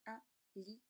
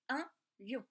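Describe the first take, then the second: First: Un lion with lion split into li-on, two syllables; diaeresis on lion. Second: Un lion with lion said as one quick syllable. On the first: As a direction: stretch lion into li-on. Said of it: "on va tricher un petit peu et on va dire". (un li-on en deux syllabes, diérèse) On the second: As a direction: say un lion in one beat, plainly. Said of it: "vous dites un lion". (un lion en une seule syllabe) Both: Shown as a demonstration.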